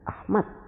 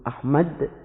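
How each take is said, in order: First: The final d sound is slightly altered. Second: The final d sound is pronounced clearly. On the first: The speaker calls it wrong. "mereka menyebut dengan Ahmad" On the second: The speaker calls it right. "kalau mereka menyebut Ahmad"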